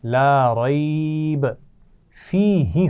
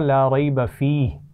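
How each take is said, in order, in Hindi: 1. यह 'rayb' के बाद रुकता है और 'fihi' को आगे से जोड़ता है। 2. यह वाक्यांश एक साथ चलता है और 'fih' के बाद रुकता है। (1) "हम इसको ऐसे भी पढ़ सकते हैं" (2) "हमने पहले वाले तीन नुक्तों पे वक्फ नहीं वक्फ नहीं किया ना, मिलाया वहाँ पर और दूसरे वाले पे वक्फ कर लिया"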